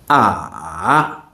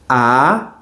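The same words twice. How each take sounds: First: The vowel is said with the third tone. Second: The vowel is said with the second tone. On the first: "Now the third tone" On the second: "Second tone"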